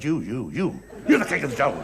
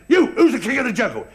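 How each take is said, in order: First: Low, placating reply to a bully; cowed little chimp. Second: Higher, forceful demand from a bullying lion; angry lion challenge. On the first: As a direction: give in at once, dropping the pitch. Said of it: "he saw a little chimp". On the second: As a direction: challenge a small animal, punching the first word. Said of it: "He was really mad". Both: Acted.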